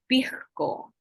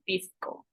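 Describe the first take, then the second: First: The s is said as a breathy h-like sound. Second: The s is said as a clear s sound. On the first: The speaker is from a traditional central Lima background. "but pisco, like with the J" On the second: The speaker's family comes from another region. "you would speak it regularly"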